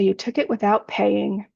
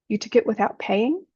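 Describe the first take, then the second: First: The question sounds blaming and condemning. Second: The question sounds openly curious and neutral. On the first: The speaker is accusing the listener of wrongdoing. "is condemnation" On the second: The speaker simply wants to know what happened. "is just curious, curiosity"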